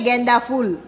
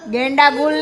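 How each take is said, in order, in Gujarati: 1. બીજો શબ્દ ph અવાજથી શરૂ થાય છે. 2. બીજો શબ્દ g અવાજથી શરૂ થાય છે. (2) "ગેંડા ગુલ નહીં"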